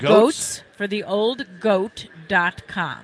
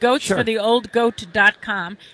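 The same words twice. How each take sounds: First: It is said more slowly. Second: It is said at normal speed.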